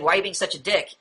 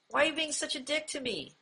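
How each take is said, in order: First: Mildly hostile demonstration; accusatory, hostile. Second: Soft, higher-pitched tender plea; sweet, tender. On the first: Teacher quoting a confrontational question, mildly accusatory. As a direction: accuse them, with understated hostility. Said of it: "it's almost like an accusatory or a hostile tone". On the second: Teacher showing passive-aggressive phrasing in a sweet, tender tone. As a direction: say it very sweetly, much softer and higher. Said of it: "in, like, a very sweet or a, almost like a tender tone". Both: Shown as a demonstration.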